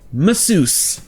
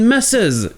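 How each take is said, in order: First: It is said with an English pronunciation. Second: It is said with a French pronunciation.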